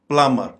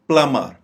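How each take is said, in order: Both takes have the same delivery.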